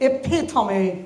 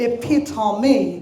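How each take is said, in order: First: The stress falls on the second syllable. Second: The stress falls on the second syllable.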